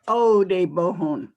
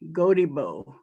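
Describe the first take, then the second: First: The name is said in its full Kiowa form. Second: The name is said in a shortened anglicized form. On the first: This is the original name in the native language. The speaker calls it right. "This is Kiowa" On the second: This is the town's version of the name. The speaker calls it wrong. "the town of Godibo is their pronunciation of Kodebohon"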